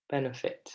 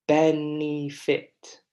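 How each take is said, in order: First: Said in the usual way. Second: "benefit" very slow, in syllables, BEN strongest; stressed first syllable. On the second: Shown as a demonstration. Teacher lets class hear the ben sound, syllable by syllable. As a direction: spell out "benefit" by ear: BEN, e, fit. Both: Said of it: "we really hear that ben sound".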